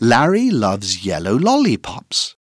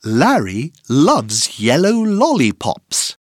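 First: The sentence is said at a fast pace. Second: The sentence is said at a normal pace.

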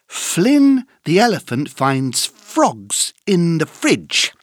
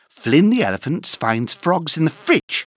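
First: It is said at a slow pace. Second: It is said at a fast pace.

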